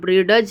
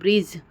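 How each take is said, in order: First: A separate d sound is heard before the ending. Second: No separate d sound before the ending. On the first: The speaker calls it wrong. "हम ब्रिडज नहीं बोल रहे" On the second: The speaker calls it right. "ब्रिज में डी का उच्चारण नहीं हो रहा है"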